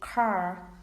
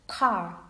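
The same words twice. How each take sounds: First: It is said with an American accent. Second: It is said with a British accent. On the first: "But in American English, they say car" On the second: "in British English, car"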